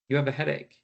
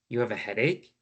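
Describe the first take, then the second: First: The pitch falls at the end. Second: The pitch rises at the end. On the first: It is a statement reflecting what was heard. The speaker calls it right. "my voice goes down" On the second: It is a yes-or-no question. The speaker calls it wrong. "that's now a question"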